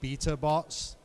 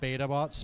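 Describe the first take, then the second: First: The word beta is said the British way. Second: The word beta is said the American way. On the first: The speaker calls it right. "for all of our viewers in England, they would much prefer you to say" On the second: The speaker calls it wrong.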